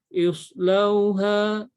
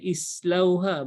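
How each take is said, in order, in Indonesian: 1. Bunyi s itu berat dan bertekanan. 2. Bunyi s itu biasa dan ringan.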